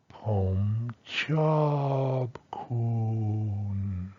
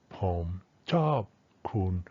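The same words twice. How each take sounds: First: "Pom chop kun" very slow, one continuous glide; co-articulated tones. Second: "pom", "chop", "kun" as three short separate words; quicker isolated tones. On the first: Teacher demonstrates co-articulation, "Pom chop kun" slowly drawn out and connected. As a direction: stretch and join "Pom chop kun" with no breaks. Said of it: "Co-articulation, add that, here's what you got". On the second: Teacher shows not-yet-connected speech, "pom, chop, kun" each separate. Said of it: "you could say that quickly". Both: Shown as a demonstration.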